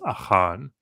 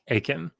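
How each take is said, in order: First: The name is pronounced the Hebrew way. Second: The name is pronounced the English way. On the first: "his name in Hebrew is" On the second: "they pronounce it in English. They say like"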